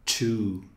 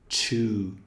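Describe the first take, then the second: First: The word starts with a hissing ch sound. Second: The same.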